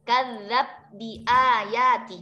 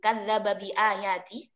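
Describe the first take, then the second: First: The b merges straight into the following bi. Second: The vowel after the b is kept before bi. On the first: "Nanti membacanya idgham kabirnya seperti itu ya" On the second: "Bagaimana cara membaca idgham kabir pada lafaz itu?"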